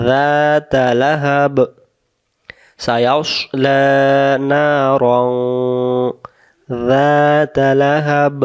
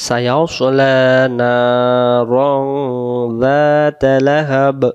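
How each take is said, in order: First: Slow, with a breath break before Lahab; pause before lahab. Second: Slow, with Narang drawn long into যাতা Lahab; no pause, joined. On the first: Teacher shows stopping to breathe, slowly. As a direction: release the breath after Narang, then যাতা Lahab. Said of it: "দম ছেড়ে দিলে এখানে". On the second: Teacher shows reading without a breath, slowly. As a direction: hold the breath, run Narang straight into যাতা. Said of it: "যদি আমরা এই জায়গায় দম না ছেড়ে দেই". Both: Shown as a demonstration.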